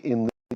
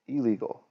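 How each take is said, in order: First: The n sound is kept before the l. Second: The n sound merges into a double l. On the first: The speaker calls it wrong. "we don't say in legal" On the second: The speaker calls it right. "we say illegal"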